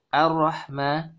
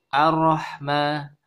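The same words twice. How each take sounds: Both takes have the same delivery.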